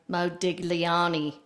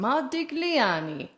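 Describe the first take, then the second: First: The name is said with an Australian accent. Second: The name is said with an Italian accent. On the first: "If you were from Australia, it might sound like" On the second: "That's how you would say it with an Italian accent"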